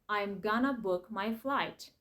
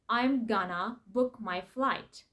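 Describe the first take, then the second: No difference in how they are said.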